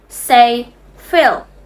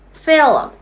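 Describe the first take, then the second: First: It is said with no vowel between l and m. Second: It is said with a vowel between l and m.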